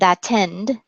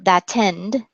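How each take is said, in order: First: The T is a crisp, clear stop. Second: The T is a crisp, clear stop.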